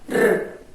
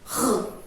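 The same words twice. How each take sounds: First: The r is a light tap of the tongue. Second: The r is a strong sound from the throat. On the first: "No som fraco, a nossa língua treme, faz r" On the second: "No som forte, o som vem daqui"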